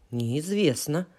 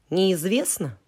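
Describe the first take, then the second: First: Неизвестно. said quietly, settled; answer. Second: Неизвестно? asked with a falling question. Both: Shown as a demonstration.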